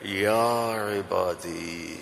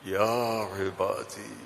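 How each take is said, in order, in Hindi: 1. यह कोमल, स्नेह भरे लहजे में कहा गया है। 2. यह कोमल, स्नेह भरे लहजे में कहा गया है।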